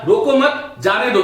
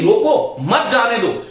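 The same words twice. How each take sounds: First: The pause comes after the word 'mat'. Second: The pause comes after the word 'roko'. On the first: Let the person go; do not stop them. "इसका मतलब जाने वाले को जाने दो, रोको मत।" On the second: Stop the person; do not let them go. "तो यहां पर देखो ये अर्थ बदल गया।"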